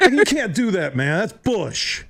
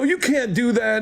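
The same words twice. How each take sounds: First: Can't keep a straight face while complaining; laughing protest. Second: Retold angry protest, pitched up; imitated anger. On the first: Retold or imitated. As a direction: protest broken by laughter, pitched up. Retelling his protest, laughing through. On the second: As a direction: hurl it back at him, higher and heated. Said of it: "I get up and I'm mad".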